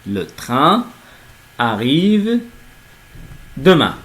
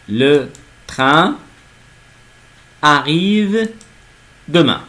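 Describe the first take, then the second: Both takes have the same delivery.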